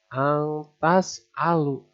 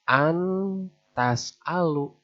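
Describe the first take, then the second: First: The n sound is concealed and blurred. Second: The n sound is pronounced clearly. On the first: The speaker calls it right. "Disamarkan, diganti begitu ya" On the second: The speaker calls it wrong. "Bukan antas alu, bukan"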